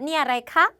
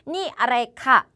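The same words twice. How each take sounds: First: The pitch rises at the end. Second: The pitch falls at the end. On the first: The speaker calls it right. "이렇게 올려주셔야 돼요" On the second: The speaker calls it wrong. "이렇게 하시면 안 돼요"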